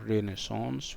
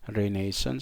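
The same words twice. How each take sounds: First: The word is pronounced the French way. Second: The word is pronounced the British way. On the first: "which is obviously French and maybe American" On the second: "this is British English"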